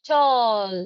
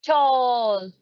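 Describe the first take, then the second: The two takes are said the same way.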